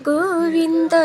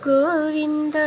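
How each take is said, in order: No difference in how they are said.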